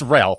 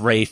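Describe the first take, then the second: First: The name is said with an L sound. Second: The name is said without an L sound. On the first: This is the usual everyday pronunciation. "It's Ralph, okay? I refuse to do that" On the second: This is how the actor himself says it. "He says Rafe"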